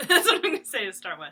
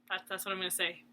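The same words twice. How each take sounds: First: Laughing it out, louder and faster. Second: Said in the usual way. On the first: Real, not acted. Laughing at herself to her viewers. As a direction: giggle through the line at your own rambling.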